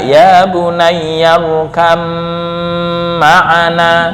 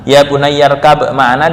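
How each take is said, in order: First: The b sound merges into the following m. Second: The b sound is kept clear before the m.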